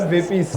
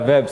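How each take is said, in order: First: The name is said as two syllables. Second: The name is said as one syllable. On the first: The speaker calls it wrong. "Not Vepis" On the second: The speaker calls it right. "Now we know how to pronounce the name"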